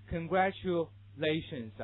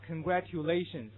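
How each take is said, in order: First: "Congratulations" as congra-chu-lations; native-style ch inside "Congratulations"; native ch sound. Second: "congratulations" with a careful t-yu in tu; slow "congratulations", no ch in the middle; learner-style congra-tyu-lations for "congratulations"; classmates' unblended reading. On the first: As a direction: model "Congratulations" with tu turned to chu. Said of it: "如果是老外对你这么说". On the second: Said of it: "那是你同学的读法". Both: Shown as a demonstration.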